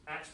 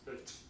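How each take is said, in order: First: The word is said in its full form. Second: The word is said in its weak form.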